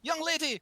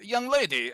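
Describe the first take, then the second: First: It is said in an exaggerated French accent. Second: It is said in the speaker's ordinary accent.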